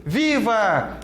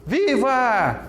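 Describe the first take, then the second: First: "Viva!" called out as applause, steadier; applauding viva. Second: "Viva!" cheered brightly in happiness; joyful viva. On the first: Teacher demoing viva as applause, hailing cheer. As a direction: hail a winner. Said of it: "Olha o de aplauso". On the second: Teacher demoing viva as joy, bright cheer. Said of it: "O de alegria". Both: Shown as a demonstration.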